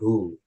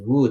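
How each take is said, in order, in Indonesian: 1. Kata itu diawali dengan bunyi h. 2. Kata itu diawali dengan bunyi w. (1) "W-nya tidak dibaca" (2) "bukan who"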